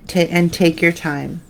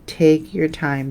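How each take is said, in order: First: Said in the usual way. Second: Slow, deliberate "Take your time". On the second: Shown as a demonstration. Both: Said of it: "That's another thing".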